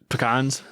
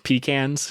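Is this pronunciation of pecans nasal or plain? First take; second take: plain; nasal. First: It is said in a plain, non-nasal way. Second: It is said with a more nasal Midwestern sound.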